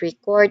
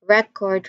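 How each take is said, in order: First: The stress is on the second syllable. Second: The stress is on the first syllable. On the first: The word is used as a verb. "when we stress the second syllable of the word, that particular word will also be um, considered as a verb" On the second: The word is used as a noun. "when we stress the first syllable of a word, that particular word will be considered as noun"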